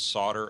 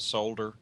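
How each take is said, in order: First: The L in the word is silent. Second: The L in the word is pronounced. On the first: The speaker calls it right. "as in S O D D E R" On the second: The speaker calls it wrong. "It's not solder"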